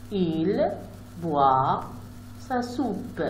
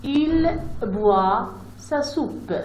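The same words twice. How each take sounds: First: Said in the usual way. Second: Il boit sa soupe read very slowly, word by word; slow sentence reading. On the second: Shown as a demonstration. Teacher reading the sample sentence slowly to pupils. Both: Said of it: "je peux lire aussi une phrase".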